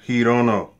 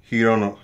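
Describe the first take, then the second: The two takes are said the same way.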